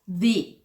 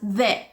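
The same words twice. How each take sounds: First: The word ends in a long 'ee' vowel. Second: The word ends in a short weak 'uh' vowel. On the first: It comes before a word starting with a vowel sound. "when the word starts with a vowel sound, the is pronounced as the" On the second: It comes before a word starting with a consonant sound. "When the word starts with a consonant sound, we pronounce it as the"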